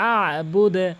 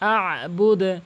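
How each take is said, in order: No difference in how they are said.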